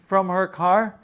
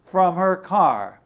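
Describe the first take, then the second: No difference in how they are said.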